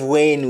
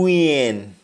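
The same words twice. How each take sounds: First: The name is said with a standard pronunciation. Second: The name is said with a Jamaican pronunciation. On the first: "Instead of [name]" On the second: "In Jamaican, ... we say Lil Wayne"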